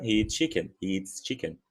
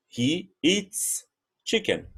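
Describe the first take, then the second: First: Fast, "eats chicken" run together with a clipped T; the fast natural version; quick and linked. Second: Very slow, every word apart, the final S of "eats" held; slow model sentence; slow, careful. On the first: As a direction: rattle off "he eats chicken" as one word. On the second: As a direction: lay out "He eats chicken" slowly for the class. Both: Shown as a demonstration. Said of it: "Rapidinho fica".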